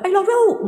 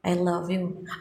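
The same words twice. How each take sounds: First: It is said loudly and forcefully. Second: It is said softly and quietly. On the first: The speaker calls it wrong. "Nggak gitu kan bu?" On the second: The speaker calls it right. "ngomongnya nggak kenceng-kencengan"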